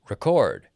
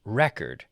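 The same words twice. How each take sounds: First: RECORD as re-CORD, loud; emphatic verb RECORD, re-CORD; stress on second syllable. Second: RECORD as REC-ord, falling; stress on first syllable. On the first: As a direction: punch the second half of RECORD. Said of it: "stress on the second half". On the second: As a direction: hit the first half of RECORD. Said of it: "stress on the first half". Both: Shown as a demonstration.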